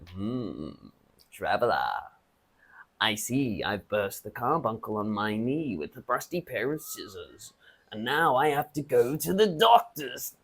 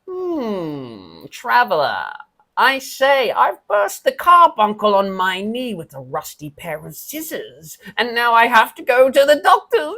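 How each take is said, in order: First: The character voice is pitched low. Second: The character voice is pitched high.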